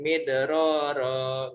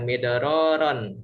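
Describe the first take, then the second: First: The word ends on a long vowel, no n. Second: The word ends with an n sound. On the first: The reciter stops on this word. The speaker calls it right. "Jadi midroro gitu ya" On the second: The reciter carries on without stopping. The speaker calls it wrong. "Bukan midroron gitu"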